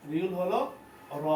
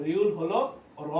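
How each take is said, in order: Both takes have the same delivery.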